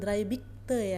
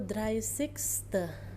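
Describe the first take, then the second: First: The middle consonant is a 'b' sound. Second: The middle consonant is a clear 's' sound. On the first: The speaker calls it wrong. "harap bacanya nggak ada lagi yang dreibigte" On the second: The speaker calls it right. "jadi yang benar itu dreißigste"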